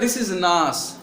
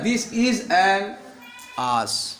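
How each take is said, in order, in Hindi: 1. n अगले शब्द से जुड़ जाता है। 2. n अगले शब्द से अलग रखा जाता है। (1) "वो लोग क्या बोलते हैं" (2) "हम लोग क्या बोलते हैं"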